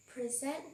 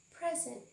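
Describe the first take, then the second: First: "Present" as a verb, stress on the second syllable, pre-ZENT; "Present" stressed on the end, pri-ZENT. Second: "present" as a noun, stress on the first syllable, PREZ-ent; "present" stressed up front, PREZ-ent. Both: Shown as a demonstration. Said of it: "notice that the two words are pronounced differently".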